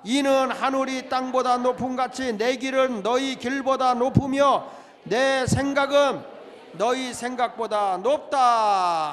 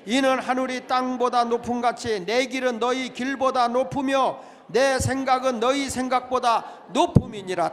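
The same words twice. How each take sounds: First: Loud and slow, stretching 높으며 and 높다 at the end; read again, more slowly. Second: Loud scripture recitation; congregational reading. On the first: Pastor asking for a second, slower reading, emphatic. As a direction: draw out the last words of the verse slowly. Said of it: "다시 한번 읽으세요". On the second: Pastor leading the church through Isaiah, recited aloud. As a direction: read the verse aloud with the church. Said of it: "같이 읽어봅니다. 시작". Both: Shown as a demonstration.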